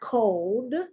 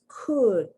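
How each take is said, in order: First: The vowel sounds like the oh in go. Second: The vowel is a short u sound. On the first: The speaker calls it wrong. "It's not" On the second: The speaker calls it right. "the short U sound"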